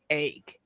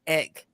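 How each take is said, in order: First: The vowel is shifted toward an 'a' sound. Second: The vowel is a plain short 'e' sound. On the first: It shows a more educated upbringing. "he pronounces that that a" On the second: This is the ordinary way people say it. "he doesn't say egg like we do"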